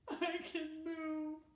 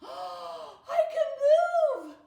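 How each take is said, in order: First: It sounds sad. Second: It sounds surprised, with a gasp.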